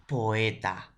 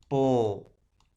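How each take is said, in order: First: Said in the usual way. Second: "Poeta" split into po-e-ta, O and E apart; teacher dictates "Poeta" syllable by syllable; syllabified demo. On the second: Shown as a demonstration. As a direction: say "Poeta" slowly, breaking the vowels. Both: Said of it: "Ahí está".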